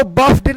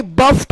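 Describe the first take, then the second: First: D ending on बफ्ड; wrong pronunciation demo. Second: T ending on बफ्ट; correct pronunciation demo. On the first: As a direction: say बफ्ड as bafd. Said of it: "इसको बफ्ड नहीं". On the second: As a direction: say बफ्ट as baft. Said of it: "बोलेंगे". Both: Shown as a demonstration.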